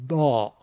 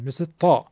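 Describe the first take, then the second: First: The letter is said with a d sound. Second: The letter is said with a t sound. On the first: This is how it is said in Egypt. "حرف ضاد رو در مصر و اطرافش مثل دال درش میگن" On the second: This is how it is said in Tunisia and Morocco. "در طرف های تونس و مراکش مردمش حرف طا تلفظ میکنن"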